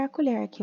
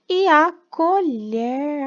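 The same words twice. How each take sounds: First: Said in the usual way. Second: "e a colher" stretched very slow, higher and louder; slow, emphatic naming of the picture; drawn out. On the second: Shown as a demonstration. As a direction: draw out "e a colher" syllable by syllable. Teacher stretching word for children.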